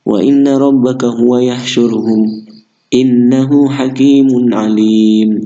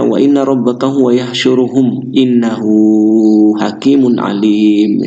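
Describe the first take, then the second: First: It is read with a stop partway through. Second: It is read straight through without stopping.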